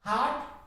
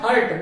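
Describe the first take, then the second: First: The vowel is a long 'ah' sound. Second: The vowel is a short 'uh' sound. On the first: The speaker calls it right. "तो यहां पे हार्ट है" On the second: The speaker calls it wrong. "इस हार्ट को ही अपन क्या कहते हैं"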